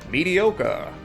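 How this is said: The word is said in a movie-character voice.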